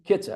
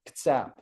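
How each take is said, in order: First: The stress is on the first syllable. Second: The stress is on the second syllable. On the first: "emphasis on the first syllable" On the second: "emphasis on the second syllable"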